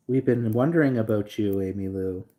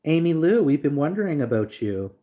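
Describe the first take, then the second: First: Said in the usual way. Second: Louder, higher sing-song call. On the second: Acted. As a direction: hail her across the room, playful. Calling out a viewer by name.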